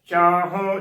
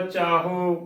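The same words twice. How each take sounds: First: ਚਾਹੋਂ with a nasalised final vowel; careful ਚਾਹੋਂ, last vowel through the nose; correct nasal ending. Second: ਚਾਹੋ with a plain, un-nasal o; demonstrated mistake, ਚਾਹੋ without bindi; wrong oral ending. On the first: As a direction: sound the bindi at the end of ਚਾਹੋਂ. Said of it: "ਇਸ ਦਾ ਸ਼ੁੱਧ ਉਚਾਰਨ ਹੋਏਗਾ". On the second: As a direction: say ਚਾਹੋ dropping the nasal at the end. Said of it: "ਗਲਤ ਉਚਾਰਨ ਹੋਏਗਾ". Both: Shown as a demonstration.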